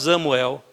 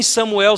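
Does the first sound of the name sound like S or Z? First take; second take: Z; S. First: The name begins with a Z sound. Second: The name begins with an S sound. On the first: The speaker calls it wrong. "você não fala Samuel" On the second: The speaker calls it right. "em Samuel"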